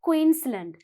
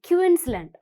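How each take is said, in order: First: The Q is said as 'kw'. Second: The Q is not said as 'kw'. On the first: The speaker calls it right. "what's the sound of Q? Qu" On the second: The speaker calls it wrong. "You don't say"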